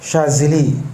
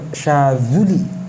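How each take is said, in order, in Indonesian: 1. Vokal kedua terdengar seperti 'i'. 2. Vokal kedua terdengar seperti 'u'. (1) "biasa disebut" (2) "yang benar"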